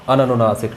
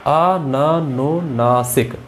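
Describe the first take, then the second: First: Said in the usual way. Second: अननुनासिक stretched syllable by syllable, very slow; slowly drawn out. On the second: Shown as a demonstration. Teacher slowing the word down for students, very slow. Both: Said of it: "यहाँ अनुनासिक है या अननुनासिक है".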